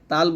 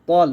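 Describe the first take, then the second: First: The t sound is light and thin. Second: The t sound is heavy and thick. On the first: The speaker calls it wrong. "তাল বলবে না কিন্তু" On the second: The speaker calls it right. "তল মোটা করে"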